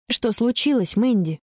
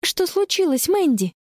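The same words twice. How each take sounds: First: Said in the usual way. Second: Put-on higher girl's voice asking gently; calm question. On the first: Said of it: "translation read plainly". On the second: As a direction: ask steadily, forcing calm. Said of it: "спокойно спрашивает".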